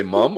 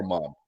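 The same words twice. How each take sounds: First: "mum" with a short uh vowel; British "mum". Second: "mom" with an open ah vowel; American "mom". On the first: Host asking a British guest about her word, British "mum". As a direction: say "mum" the British way, rhyming with drum. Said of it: "do you say mum or mom". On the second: Host offering his own word to the guest, American "mom". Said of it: "over here we say mom". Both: Shown as a demonstration.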